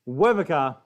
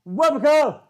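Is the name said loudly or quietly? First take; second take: quietly; loudly. First: The name is said at a normal, quiet level. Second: The name is said loudly, almost shouted. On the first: The speaker calls it wrong. "I'm saying it wrong" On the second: The speaker calls it right. "Gotta go loud"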